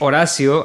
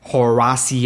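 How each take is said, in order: First: It is said with a Spanish accent. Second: It is said with an American accent.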